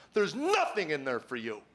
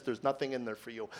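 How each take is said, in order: First: Insistent, falling mock outcry; mock scream. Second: Low, soft nagging inner voice; quietly discourage, like a thought; understated voice in the head. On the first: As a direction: imitate a screaming voice without real volume. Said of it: "a voice screams at me". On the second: Retold or imitated. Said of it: "another voice says".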